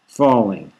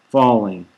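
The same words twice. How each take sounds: The two takes are said the same way.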